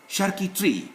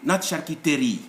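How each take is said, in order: First: The middle unaccented e is silent. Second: The middle unaccented e is pronounced. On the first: The speaker calls it right. "all the E's without an accent are silent in French" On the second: The speaker calls it wrong.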